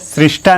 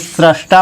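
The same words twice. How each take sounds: First: The first syllable has an 'ri' sound. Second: The first syllable has an 'ra' sound. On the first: The speaker calls it wrong. "यहाँ पर री नहीं होगा" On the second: The speaker calls it right. "रा की मात्रा होगी"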